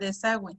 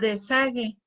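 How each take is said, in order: First: The u after the g is pronounced. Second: The u after the g is silent. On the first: The speaker calls it right. "pronunciando con diéresis sería desagüe" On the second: The speaker calls it wrong. "si yo no le colocara diéresis, ¿cómo diría? Diría desague, y desague pues no"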